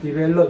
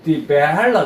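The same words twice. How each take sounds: First: The word is said plainly, without extra expression. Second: The word is said with exaggerated, acted expression. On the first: The speaker calls it wrong. "그냥 디벨롭 이렇게 안 하고" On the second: The speaker calls it right. "일부러"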